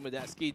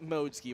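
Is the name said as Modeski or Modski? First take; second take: Modeski; Modski. First: The name has three syllables, Mo-de-ski. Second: The name has two syllables, Mod-ski. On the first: This is how Filipino readers tend to say it. The speaker calls it wrong. "does kind of seem um, natural in the Filipino accent of things" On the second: This is the name's actual pronunciation. The speaker calls it right. "but it really is Modski"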